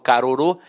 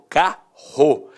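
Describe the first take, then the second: First: The double R is split into two separate sounds. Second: The double R is one strong R sound. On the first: The speaker calls it wrong. "eu não falo carorô" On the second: The speaker calls it right. "eles têm um som de R forte"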